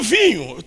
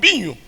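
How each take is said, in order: First: The word is said with a standard accent. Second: The word is said with a northern Portuguese accent. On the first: "não estavam falando vinho" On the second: "falam vinho"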